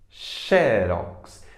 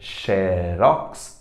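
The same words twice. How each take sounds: First: The stress is on the first syllable. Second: The stress is on the last syllable. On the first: "todo mundo pronuncia como sendo paroxítona" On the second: "originalmente, é uma marca"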